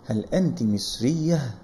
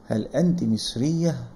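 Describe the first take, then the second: First: The last word ends in a short 'ah' sound. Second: The same.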